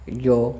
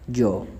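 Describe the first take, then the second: First: The word starts with a Y sound. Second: The word starts with a J sound. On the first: "ये की तरह भी" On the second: "जिम की तरह भी"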